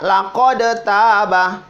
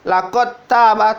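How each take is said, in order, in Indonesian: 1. Huruf d diucapkan terpisah sebelum t. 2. Huruf d menyatu langsung dengan t. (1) "Tidak dibaca" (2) "dal yang ini dihilangkan kol-kolanya, langsung dimasuk di ta"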